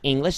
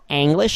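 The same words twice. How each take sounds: First: The word is pronounced the usual English way. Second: The word is pronounced the German way. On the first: The speaker calls it wrong. "not English" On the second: The speaker calls it right. "like English"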